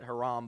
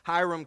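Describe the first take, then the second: First: The first vowel sounds like 'ah'. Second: The first vowel sounds like 'eye'. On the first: This is how some other people say it. "some pronounce it Haram" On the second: This is how the speaker says it. "but Hiram"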